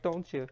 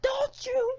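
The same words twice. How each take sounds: First: Said in the usual way. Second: High hammed-up whiny plea; fake-sob the question up high; mock whimper. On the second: Host fake-crying at Mother Nature, high whiny mock sob. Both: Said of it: "You're making me so sad".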